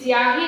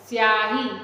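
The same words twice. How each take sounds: First: An 'i' vowel sound comes before the initial s. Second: The word begins directly with the s sound. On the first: The speaker calls it wrong. "स्याही नहीं बोल रहे हैं" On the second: The speaker calls it right. "स के मूल ध्वनि के साथ हम उच्चारण कर रहे हैं"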